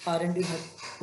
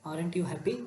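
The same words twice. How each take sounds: First: "Aren't you happy?" with the pitch falling at the end; "Aren't you happy?" ending on a downward fall. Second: "Aren't you happy?" with the pitch rising on happy; "Aren't you happy?" ending on an upward lift. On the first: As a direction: ask it already knowing the answer, letting the end drop. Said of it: "following tone को use करता है". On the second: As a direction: ask it hopefully, lifting the end on happy. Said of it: "rising tone use करता है". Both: Shown as a demonstration.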